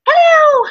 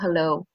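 First: The greeting sounds overly excited. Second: The greeting sounds dull and casual.

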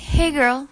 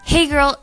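First: It sounds friendly and nice. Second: It sounds friendly and nice.

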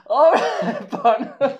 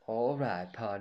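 First: It is said in a squeaky chipmunk voice. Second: It is said in a normal voice.

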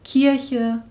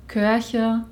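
First: The vowel is a plain unrounded i. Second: The vowel is rounded, like German ö. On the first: "Gemeint sind damit" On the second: "Ich sage auf Braunschweigisch"

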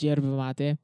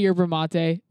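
First: Yerba begins with a J sound. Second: Yerba begins with a Y sound. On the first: The speaker calls it right. "but it's pronounced yerba mate" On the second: The speaker calls it wrong. "You could say yerba mate"

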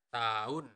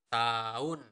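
No difference in how they are said.

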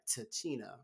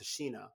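First: The middle consonant sounds like 'ch'. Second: The middle consonant sounds like 'sh'. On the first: The speaker calls it wrong. "I said the name wrong because I thought it was Tichina" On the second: The speaker calls it right. "but it's Tashina"

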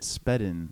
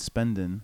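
First: No n sound comes before the d. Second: An n sound comes before the d. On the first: The speaker calls it right. "but it's actually Spedin" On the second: The speaker calls it wrong. "I keep saying Spendin"

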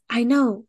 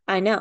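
First: It is said with enthusiasm. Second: It is said flat and deadpan. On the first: The speaker calls it wrong. "You did say it enthusiastically the first time" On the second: The speaker calls it right. "I'm not saying it enthusiastic"

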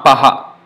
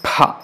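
First: A separate vowel comes before the breathy h. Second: The breath is released together with the p. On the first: The speaker calls it wrong. "Not paha" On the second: The speaker calls it right. "same pa with force of breath, aspirated"

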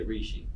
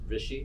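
First: The name has an Americanized pronunciation. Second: The name has its native, original pronunciation. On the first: This is how local friends say the name. "growing up here, people say Reeshi" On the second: This is the true form of the name. "which is like the real way you'd pronounce it"

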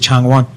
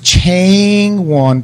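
First: The A vowel is short and clipped. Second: The A vowel is long and drawn out. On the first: The speaker calls it right. "We'll say the short vowels" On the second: The speaker calls it wrong. "that would be a long A sound"

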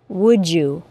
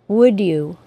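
First: The d and y blend into j. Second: Both words are said separately, with no blending. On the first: "with the assimilated CH sound and J sound" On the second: "articulate perfectly, with no assimilation"

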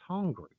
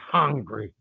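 First: The word is pronounced in a clear, standard way. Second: The word is pronounced in a rough, cavemanlike way. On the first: The speaker calls it right. "It's hungry" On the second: The speaker calls it wrong. "Not hungry. ... like I just crawled out of a cave"

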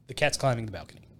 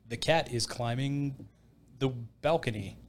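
First: "Cat is" is contracted into one word, "cat's". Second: "Cat is" is said as two full, careful words. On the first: It sounds like natural everyday speech. The speaker calls it right. "that's how you would say it" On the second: It sounds stiff and overly proper. The speaker calls it wrong. "Not like"

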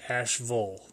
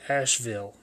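First: The last syllable is reduced to a weak 'vul'. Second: The last syllable is a full 'ville' sound. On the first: The speaker calls it wrong. "most people in North Carolina will say Asheville" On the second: The speaker calls it right. "I love that they said the word correctly"

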